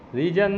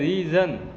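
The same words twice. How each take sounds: First: The middle consonant is a hard 'j' sound. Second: The middle consonant is a soft 'zh' sound. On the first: The speaker calls it wrong. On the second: The speaker calls it right.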